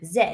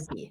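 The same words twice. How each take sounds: First: The letter is said as 'zed', non-American. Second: The letter is said as 'zee', American.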